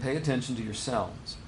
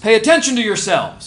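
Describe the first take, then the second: First: It is said calmly, as a plain statement. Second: It is said forcefully, as an exclamation. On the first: It is simple ordinary advice. "he's just saying" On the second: It is an urgent warning. "like he's exclamating"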